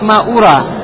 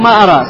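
First: The first vowel is a rounded u sound. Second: The first vowel is an open a sound. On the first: I do not suppose. "Ваяджуз даммуха, а можно прочитать маура" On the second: I do not know. "Можно прочитать маара"

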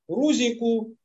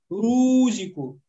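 First: The final u is full and short. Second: The final u is drawn out into a long vowel. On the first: The speaker calls it right. "Это рузику" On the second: The speaker calls it wrong. "после доммы даже появляется буква «харфульмет» и говорит «рузику». Рузику тоже ошибка"

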